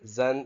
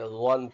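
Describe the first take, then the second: First: The consonant is a light, plain z sound. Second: The consonant is heavy, with rounded lips. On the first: The speaker calls it wrong. "اس کو بھی نہیں پڑھیں گے" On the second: The speaker calls it right. "تھوڑا موٹا کر کے ہونٹ کو گول کر کے پڑھیں گے"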